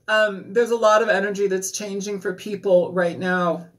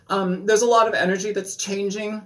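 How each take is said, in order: First: Said in the usual way. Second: Words sprayed with spit; spitting a little on the words; spitting while talking. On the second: Real, not acted. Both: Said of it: "I'm sorry, I'm spitting".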